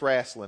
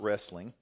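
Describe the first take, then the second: First: It is said in the local regional pronunciation. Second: It is said in a standard, non-local pronunciation. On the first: This is how people here say it. The speaker calls it right. "around here it's wrestling" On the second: This is not how people here say it. The speaker calls it wrong. "not wrestling"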